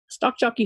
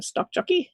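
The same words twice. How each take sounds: First: Said in the usual way. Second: Name called out high with a rising end; calling out a name. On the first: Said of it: "Three times for you". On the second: Shown as a demonstration. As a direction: call the name out like across a room. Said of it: "I have to call out your name".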